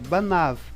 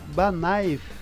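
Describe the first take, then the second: First: The vowel before v is a plain a. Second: The vowel before v glides into a y sound. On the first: The speaker calls it right. "é banav" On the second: The speaker calls it wrong. "em vez de pronunciar banaiv"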